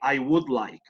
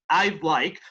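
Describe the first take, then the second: First: The verb is said in full as would. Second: The verb is contracted to a short d sound. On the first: The speaker calls it wrong. "podrían decir también I would like" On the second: The speaker calls it right. "mejor aún si usan la contracción"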